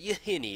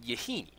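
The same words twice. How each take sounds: First: The vowel is not said as a hard 'ee'. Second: The vowel is said as a hard, long 'ee'. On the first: The speaker calls it right. "Yahini is the correct way to say it" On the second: The speaker calls it wrong. "I used to call it Yahini ... I favor hard E's sometimes"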